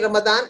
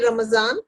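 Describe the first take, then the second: First: The middle consonant is a d sound. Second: The middle consonant is a z sound. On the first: It follows the Arabic way of reading the letter. "Otherwise, you can say Ramadan" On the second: It follows the Persian way of reading the letter. "because we follow a more Persianized form of Urdu, so we say Ramazan"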